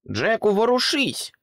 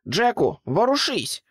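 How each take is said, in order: First: High, loud urgent call; urgent shout again. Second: Urgent shout. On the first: Pig repeating her cry to frozen Jack. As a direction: yell at him to move. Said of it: "повторила різдвяна свинка". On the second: Pig yelling at frozen Jack to run. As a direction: yell at Jack to move now. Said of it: "вигукнула різдвяна свинка". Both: A narrator's reading.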